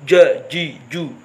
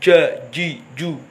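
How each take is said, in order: Both takes have the same delivery.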